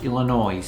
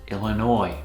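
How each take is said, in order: First: The final S sound is pronounced. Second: The final S sound is silent. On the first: The speaker calls it wrong. "Not pronounced Illinois" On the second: The speaker calls it right. "the S is silent"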